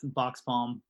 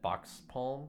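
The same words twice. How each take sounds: First: Box Palm said the local way, unhurried; proper pronunciation. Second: Wisconsin accent on Box Palm, flat Midwestern vowels. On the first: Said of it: "you say it ... say it properly". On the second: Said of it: "you can probably hear my Wisconsin accent when I say that". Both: Shown as a demonstration.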